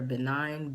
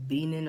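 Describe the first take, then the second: First: Benin said as beh-NINE; alternative pronunciation. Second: Benin said as BEE-nin, long ee; alternative pronunciation. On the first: Guessing at the country's name, Benin as beh-NINE. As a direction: try Benin ending like the word nine. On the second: Guessing at the country's name, Benin as BEE-nin. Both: Shown as a demonstration. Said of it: "hope I'm saying that right".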